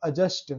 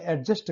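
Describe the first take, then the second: First: एडजस्ट with no d, "a-just"; silent d. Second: एडजस्ट with the d sounded, "ad-just"; common pronounced d. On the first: Teacher giving the true pronunciation, silent d in एडजस्ट. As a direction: say एडजस्ट going straight to the j. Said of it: "उसका उच्चारण होता है". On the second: Teacher quoting how people often say it, d sounded in एडजस्ट. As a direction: voice the d before j in एडजस्ट. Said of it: "अक्सर हम बोलते हैं". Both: Shown as a demonstration.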